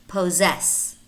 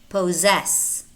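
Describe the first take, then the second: No difference in how they are said.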